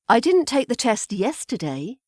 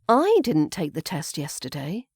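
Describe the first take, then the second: First: The word "yesterday" carries the main stress. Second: The word "I" carries the main stress. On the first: The test may have been taken another day. "there I've stressed the final word of yesterday" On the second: Someone else may have taken the test. "I didn't take the test, but maybe somebody else did"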